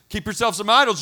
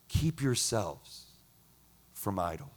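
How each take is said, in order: First: It is said in a stern, threatening tone. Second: It is said in a warm, loving tone. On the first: The warning is a threat with conditions. The speaker calls it wrong. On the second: The warning comes from tender affection. The speaker calls it right.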